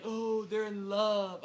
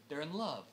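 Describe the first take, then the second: First: Drawn-out, gushing "oh, they're in love"; slow sentimental mock coo; mock swooning. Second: Said in the usual way. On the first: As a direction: gush it slowly and loudly, mocking the sentiment. Mocks sympathy for the lovers.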